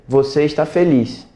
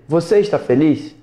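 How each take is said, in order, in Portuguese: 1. A voz cai no final. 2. A voz sobe no final. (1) "e isso ser uma afirmação" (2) "E isso virar uma pergunta"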